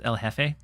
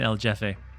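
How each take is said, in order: First: The J in Jefe sounds like an H. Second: The J in Jefe sounds like English J. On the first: The speaker calls it right. "So it's El Jefe" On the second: The speaker calls it wrong. "I've been mispronouncing it"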